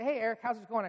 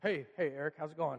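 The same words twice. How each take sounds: First: Forced cheer. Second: Lower, choked attempt at normal greeting; retelling a brave front over crying; trying to sound fine after crying; covering up tears. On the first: Retold or imitated. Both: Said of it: "I try to cover over the fact that I've been crying".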